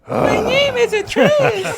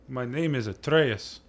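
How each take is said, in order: First: It is said in a two-year-old's voice. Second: It is said in his normal voice.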